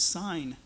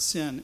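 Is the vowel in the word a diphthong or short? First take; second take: diphthong; short. First: The vowel is a long eye diphthong. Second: The vowel is a short i sound. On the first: The speaker calls it right. "it would actually be more accurately pronounced as sign" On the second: The speaker calls it wrong. "It's not sin as in the English word sin"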